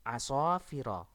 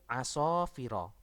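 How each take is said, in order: The two takes are said the same way.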